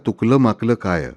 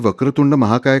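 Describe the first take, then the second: First: The words come out garbled and slurred. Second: The words are pronounced clearly and fully. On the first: The chanter cannot form the words properly. The speaker calls it wrong. "जीभ मुड़ती नहीं है, अशिक्षित है" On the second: This is the proper chant. The speaker calls it right. "वक्रतुंड महाकाय का उच्चार हो रहा था"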